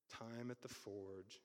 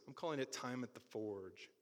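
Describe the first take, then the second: First: "Time at the Forge" said much softer and slow; soft, slow repeat. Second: Said in the usual way. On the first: Shown as a demonstration. Repeating the feature's name to the congregation, hushed and slow.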